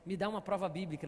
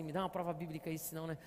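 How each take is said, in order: First: Said in the usual way. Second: A low, quiet doubting voice asking for "prova bíblica"; skeptical inner voice. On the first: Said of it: "uma voz assim". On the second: Pretend. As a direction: mutter it like a cynical voice in your head. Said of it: "sempre vem cá uma voz assim". (voz interior cética, baixa e desconfiada)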